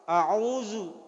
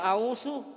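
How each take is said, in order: First: The middle consonant is a buzzing z sound. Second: The middle consonant is a hissing s sound. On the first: The speaker calls it right. "Jadi nareko ibacai taus auzu" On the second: The speaker calls it wrong. "tania ausu, ko ausu berarti sah"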